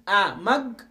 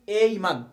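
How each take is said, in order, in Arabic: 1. الأداة تُنطق بصوت 'uh' قصير. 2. الأداة تُنطق باسم الحرف 'ay'. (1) "ممكن أقول أمج" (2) "ممكن أقول أي مج، الاثنين صح"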